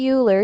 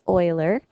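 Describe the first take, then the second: First: The name begins with a 'yoo' sound. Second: The name begins with an 'oy' sound. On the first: The speaker calls it wrong. "you don't say Euler" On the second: The speaker calls it right. "you say Euler"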